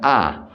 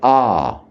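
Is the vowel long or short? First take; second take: short; long. First: The vowel is kept short. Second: The vowel is held long. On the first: "as opposed to" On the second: "we pronounce the A long, elongated"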